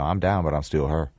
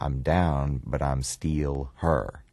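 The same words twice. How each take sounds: First: Loose, mumbled Memphis vowels: steal and her. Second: Clear Memphis vowels: steal and her. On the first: "if you loosen that up a little bit and you put a mumble to it" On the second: "don't say still, say steal. And don't say here, say her"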